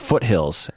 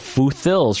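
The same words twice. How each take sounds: First: The middle is said as t plus h. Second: The middle is said as a th sound. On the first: The speaker calls it right. "Sometimes it's just a T and an H" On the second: The speaker calls it wrong. "I learned that TH was the th sound, like as in tooth"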